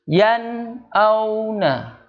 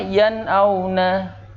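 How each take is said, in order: First: There is a long break inside the word. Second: The word flows without any break. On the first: The speaker calls it wrong. "Jadi dia agak jeda agak lama" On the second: The speaker calls it right. "Harusnya yan auna. Yan auna, tidak menjedanya"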